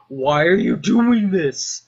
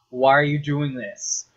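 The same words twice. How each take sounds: First: Louder, higher, drawn-out protest; slow the question into a raised wail; exasperated yell. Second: First, more contained protest; exasperated question. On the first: Scientist protests Doom Guy smashing the equipment, exasperated yell. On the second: Scientist questions Doom Guy smashing the equipment, contained exasperation. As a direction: ask it in exasperation, holding back. Acting out Hayden's rising exasperation. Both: Retold or imitated.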